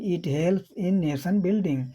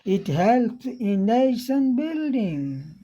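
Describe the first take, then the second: First: Read flatly in a Hindi accent, without pitch movement. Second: Read in a British accent with clear rises and falls. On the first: "कुछ कोई उतार चढ़ाव नहीं, हम हिंदी लहजे में पढ़ देते हैं" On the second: "जैसे अंग्रेजी में पढ़ते हैं ... कितनी बढ़िया इसमें उतार चढ़ाव आया"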